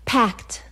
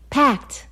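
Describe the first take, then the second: First: Said in the usual way. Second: Packed. hit higher and harder; stressed repeat. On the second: Retold or imitated. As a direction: lean on Packed. in disbelief. Repeats the word for emphasis.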